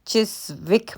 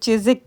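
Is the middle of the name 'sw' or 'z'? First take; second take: sw; z. First: The middle has an 's' followed by a 'w'. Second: The middle has a 'z' with no 'w'. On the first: The speaker calls it wrong. "चिस्विक मैं पहले कह रही थी" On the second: The speaker calls it right. "बाद में पता चला कि इसको चिज़िक कहते हैं"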